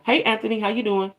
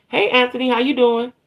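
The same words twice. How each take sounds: First: Put-on soft, sweet girly greeting; girl voice. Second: Said in the usual way. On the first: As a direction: gently say hi in a girly voice. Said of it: "In my girl voice". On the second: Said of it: "So I said".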